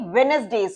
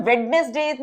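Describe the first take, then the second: First: "वेडनेसडेज" without the first D, as We-nes-days; silent D. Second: "वेडनेसडेज" with the first D sounded, as Wed-nes-days; pronounced D. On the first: Teacher showing students how we say it, "वेडनेसडेज" with the first D silent. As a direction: drop the D after वे in "वेडनेसडेज". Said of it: "डी को हम avoid करते हैं". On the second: Teacher showing students what not to say, "वेडनेसडेज" with its first D pronounced. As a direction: voice the D after वे in "वेडनेसडेज". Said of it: "इसे हम वेडनेसडेज नहीं". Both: Shown as a demonstration.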